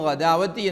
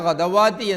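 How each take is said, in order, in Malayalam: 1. നീണ്ട "a" "w" ശബ്ദത്തിന് മുമ്പ് വരുന്നു. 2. "w" ശബ്ദം നീണ്ട "a"യ്ക്ക് മുമ്പ് വരുന്നു. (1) "പിഴവാക്കി" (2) "പിഴവാക്കി"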